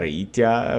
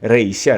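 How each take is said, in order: First: The middle consonant is a t sound. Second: The middle consonant is a c sound. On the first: It keeps the original sound. The speaker calls it right. "eu prefiro ficar com a pronúncia Reitia" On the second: It reflects Latin influence. The speaker calls it wrong. "Alguns pronunciam Reícia, eh, talvez pela influência do latim"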